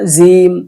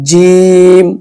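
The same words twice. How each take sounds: First: The first consonant is soft. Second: The first consonant is hard. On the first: The speaker calls it wrong. "এভাবে নরম ভাবে বলি" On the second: The speaker calls it right. "সহি উচ্চারণ শক্তভাবে হবে"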